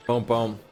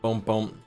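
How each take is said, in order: Both takes have the same delivery.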